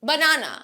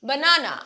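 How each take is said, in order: The two takes are said the same way.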